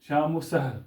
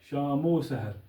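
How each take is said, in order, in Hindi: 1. दोनों शब्दों के बीच अलग 'va' बोला जाता है। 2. 'o' की आवाज़ 'shaam' से जुड़ती है। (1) "तो वो गलत है" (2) "इसको मीम के साथ तलफ़ुज़ करते वक्त जोड़ना पड़ेगा"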